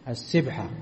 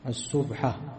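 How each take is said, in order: First: Colloquial form, first vowel is 'i' (sibha). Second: Standard Arabic form, first vowel is 'u' (subha).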